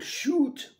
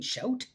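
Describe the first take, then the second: First: It uses the stereotyped Canadian 'oo' vowel. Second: It uses the ordinary Canadian 'ow' vowel.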